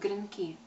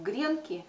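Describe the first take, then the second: First: The stress is on the last syllable. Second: The stress is on the first syllable. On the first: This follows the older official norm. "с ударением на последний слог" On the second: This follows living everyday usage. "более органично ложится ударение на первый слог"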